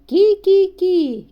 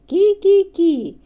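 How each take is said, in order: Both takes have the same delivery.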